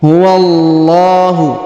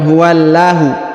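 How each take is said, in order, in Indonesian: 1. Huruf l dalam Allah tebal dan penuh. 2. Huruf l dalam Allah tipis dan ringan. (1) "tapi huwallahu, tebal ya"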